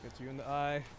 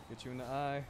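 Both takes have the same delivery.

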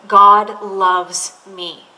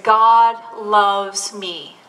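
First: Slow reading. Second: Slow reread. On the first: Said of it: "a line that says". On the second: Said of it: "He said ... Read it again". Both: Retold or imitated.

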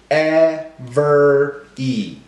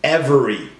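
First: "E-ver-y" split slowly into three clapped beats; clapped syllables. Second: Said in the usual way. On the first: Shown as a demonstration. Teacher clapping out "E-ver-y" syllables for class. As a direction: say "E-ver-y" beat by beat, one clap per syllable. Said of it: "clap 'em out". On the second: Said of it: "get ready to clap 'em out".

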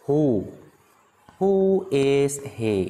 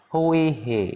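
First: Very slow, each word held; slow model question. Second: Said in the usual way. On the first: Shown as a demonstration. Teacher introduces the question to students, very slowly. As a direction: stretch "Who is he" word by word.

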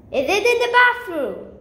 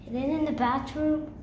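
First: Raised questioning call. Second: Soft, low musing; subdued question. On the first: Child searching for the pipe, calling the question out. Repeats question, now louder. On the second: Child searching for the balloon pipe, subdued. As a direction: ask it quietly, half to yourself. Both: Real, not acted.

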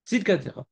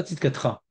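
First: "Tzidkatecha" with a sounded E after the T; "Tzidkatecha", "te" kept distinct; full vowel form. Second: "Tzidkatra" with no vowel between T and R; "Tzidkatra" squeezed into three syllables; dropped vowel. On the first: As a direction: say all four syllables of "Tzidkatecha". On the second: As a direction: run T straight into R in "Tzidkatra". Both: Shown as a demonstration. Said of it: "Pas Tzidkatra".

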